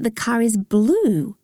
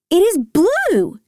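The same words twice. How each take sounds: First: Said in the usual way. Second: High, drawn-out BLUE; excited cry, stretching "blue"; thrilled discovery, pitched way up; excited realisation. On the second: A narrator's reading. Excited repeat on recognising colour.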